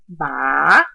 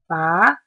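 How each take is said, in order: First: The pitch dips low then rises again. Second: The pitch rises from middle to high. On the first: "starts low, dips, and goes back up" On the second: "starts in the middle and rises to the top"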